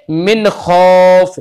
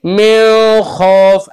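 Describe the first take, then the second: First: मिन खौफ with a clean, clear न and no nasal hum, slow; clear izhar. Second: मिन खौफ with a nasal hum on the न; wrong nasal reading. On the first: Teacher showing a student the correct clear reading. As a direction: say मिन crisply, then खौफ. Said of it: "बल्कि क्या पढ़ेंगे". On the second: Teacher showing a student the wrong nasal reading. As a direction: push मिन through the nose before खौफ. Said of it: "ऐसे नहीं पढ़ेंगे". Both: Shown as a demonstration.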